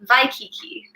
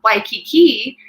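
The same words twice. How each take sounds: First: It begins with a V sound. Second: It begins with a W sound.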